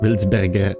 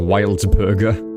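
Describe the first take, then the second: First: The name is said with German pronunciation. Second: The name is said with English pronunciation. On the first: "or something like from German" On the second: "like in like an English pronunciation"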